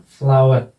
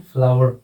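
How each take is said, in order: First: फ्लावर ending in a vowel, "flawe"; R-less pronunciation. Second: फ्लावर with a final R, "flawer"; optional R sounded. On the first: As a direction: say फ्लावर with the final R left silent. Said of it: "क्या हो जाएगा इसका phonetic transcription". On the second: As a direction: close फ्लावर on an audible R. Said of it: "optional के रूप में". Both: Shown as a demonstration.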